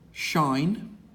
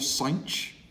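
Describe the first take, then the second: First: It sounds like the word 'shine'. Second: It sounds like the word 'cinch'. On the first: This version is chosen because it sounds nicer. "This one is pronounced either shine" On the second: This version keeps the h in its proper place. "or cinch"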